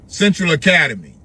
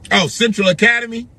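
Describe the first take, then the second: First: Said in the usual way. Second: Central Academy with a high rising oh; sudden recognition. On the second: Real, not acted. Recalling the school aloud, voice rising in surprise. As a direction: pitch jumps up as the name clicks.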